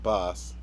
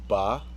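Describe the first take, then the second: First: It ends with a clear s sound. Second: It ends in an open vowel with no s. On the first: The speaker calls it wrong. "I've been saying that wrong" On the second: The speaker calls it right. "not Boss"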